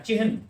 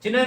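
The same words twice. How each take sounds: First: चिन्ह said as "chi-hun", h sounded before n; चिन्ह spoken fully as "chihan", every sound clear; teacher models the pure form चिन्ह as "chihan"; correct pronunciation. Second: चिन्ह said as "chinh", n and h run together; चिन्ह clipped to two sounds, "chin-h", the everyday error; teacher mimics the common slip चिन्ह as "chinh"; common wrong pronunciation. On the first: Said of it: "ये है इसका शुद्ध रूप". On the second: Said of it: "और हम बोलते हैं चिन्ह". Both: Shown as a demonstration.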